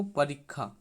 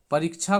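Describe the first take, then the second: First: परीक्षा said as parikha, with kh in place of ksha; teacher then says परीक्षा the Panchpargania way, as parikha; Panchpargania pronunciation. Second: परीक्षा said with the standard Hindi ksha sound, pariksha; teacher first says परीक्षा the Hindi way, as pariksha; Hindi pronunciation. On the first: Teacher contrasts it with Hindi, says परीक्षा as parikha. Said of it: "पंचपर्गनिया में परीक्षा लिखा जाएगा". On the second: Teacher shows the Hindi reading before the Panchpargania one, says परीक्षा as pariksha. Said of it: "परीक्षा को परीक्षा". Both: Shown as a demonstration.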